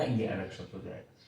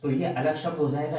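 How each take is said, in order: First: ये अलग शब्द हो जाएगा repeated much softer and lower; quiet echo. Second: Said in the usual way. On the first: Shown as a demonstration. Teacher repeating his warning to students, softly and lower. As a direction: drop to a soft low repeat. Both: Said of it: "अगर इसको ऐसे बना दिया".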